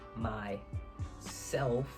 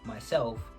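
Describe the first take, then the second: First: It is said as two separate words. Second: It is said as one joined word. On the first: It refers to the speaker's inner self or conscience. "like two separate words" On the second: It refers to the speaker in the ordinary sense. "not myself"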